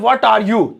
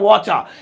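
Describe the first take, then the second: First: Each word is said separately and fully. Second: The words are run together into two syllables. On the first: "जैसे आपको बोलना है" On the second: "slang English में छपरी style में"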